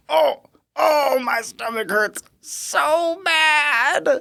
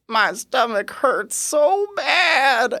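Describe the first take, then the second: First: Very high, slow, crying whine; high quavering moan. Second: High, slow, quavering moan; quavering patient voice. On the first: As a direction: ham up the patient's pitiful wail. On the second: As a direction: imitate the patient's wobbly high whine. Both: Retold or imitated. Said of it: "quavering, high-pitched voice".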